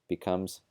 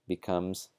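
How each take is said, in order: Both takes have the same delivery.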